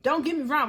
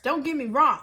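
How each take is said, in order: First: "Don't" weighted, the rest falling; stress on don't. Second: Said in the usual way. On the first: Shown as a demonstration. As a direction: lean hard on "Don't".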